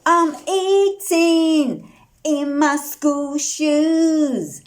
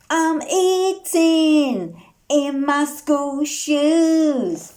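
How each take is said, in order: Both takes have the same delivery.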